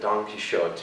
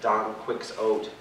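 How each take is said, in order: First: The name is said with Spanish-style sounds. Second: The name is said with English sounds. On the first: The speaker calls it right. "instead of" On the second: The speaker calls it wrong. "the English, when they like to pronounce things like"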